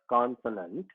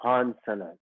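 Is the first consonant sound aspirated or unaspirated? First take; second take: unaspirated; aspirated. First: The first consonant has no puff of air. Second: The first consonant has a puff of air. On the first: The speaker calls it wrong. "it's not consonant" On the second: The speaker calls it right. "You hear the ha"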